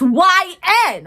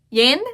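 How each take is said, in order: First: It is said as two separate letter names. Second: It is said as one word, rhyming with pin. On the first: The speaker calls it right. "no, it's Y N" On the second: The speaker calls it wrong. "I thought it was pronounced Yin"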